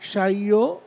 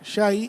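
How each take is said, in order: First: The vowel drifts and glides toward an o sound. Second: The vowel stays pure with no o glide. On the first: The speaker calls it wrong. "শাইও করলে মাজহুল হয়ে যায় আহ, এবং ঝুলে যায়, এমন যেন না হয়।" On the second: The speaker calls it right. "শাই এখানে মারুফ"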